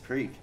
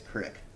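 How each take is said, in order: First: It is said the standard way, rhyming with 'seek'. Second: It is said Nebraska-style, rhyming with 'stick'.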